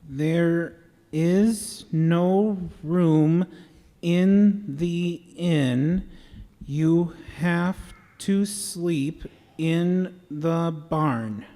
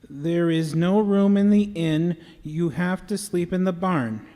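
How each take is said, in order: First: It is said slowly and deliberately. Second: It is said at a quicker pace.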